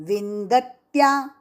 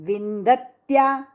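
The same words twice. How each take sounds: No difference in how they are said.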